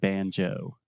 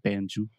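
First: The final o glides, strongly exaggerated. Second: The final o is a short, steady vowel. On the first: The speaker calls it right. "we really exaggerate that moving vowel, the O sound" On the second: The speaker calls it wrong. "So we're not saying banjo"

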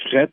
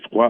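First: It is said the Quebec way, like fret. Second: It is said the France way, like frwa.

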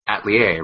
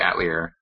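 First: The word is pronounced the French way. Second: The word is pronounced a non-French way. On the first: "it's a French word, so it probably should be Atelier" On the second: "in this one, they say Atelier"

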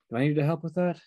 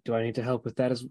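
First: It is said in a more feminine voice. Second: It is said in a plain, unaltered voice. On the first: "A more feminine voice comes out" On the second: "Mercutio's original voice comes out for a second"

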